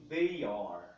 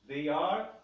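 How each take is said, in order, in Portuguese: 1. Ela é dita como duas palavras completas e separadas. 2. Ela é dita como duas palavras completas e separadas.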